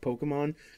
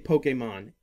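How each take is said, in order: First: The middle syllable is quick and weak. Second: The middle syllable is clearly emphasized. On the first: The speaker calls it wrong. "they don't put emphasis on the A" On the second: The speaker calls it right. "how it's supposed to say"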